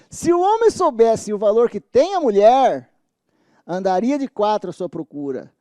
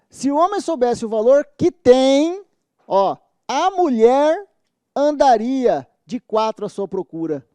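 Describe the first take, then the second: First: There is a pause right after the word mulher. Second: There is a pause right after the word tem.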